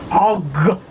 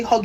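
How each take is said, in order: First: "Hog" drawn out with husky weight; emphasized HOG. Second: Said in the usual way. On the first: Shown as a demonstration. Showing how to say it, "Hog" heavily emphasized. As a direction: lean hard and long on "Hog". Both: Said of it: "you need to emphasize the hog".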